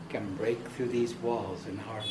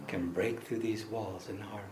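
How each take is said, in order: The two takes are said the same way.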